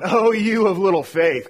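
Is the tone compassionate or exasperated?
exasperated. It sounds impatient and scolding. The speaker is fed up with the hearers. The speaker calls it wrong.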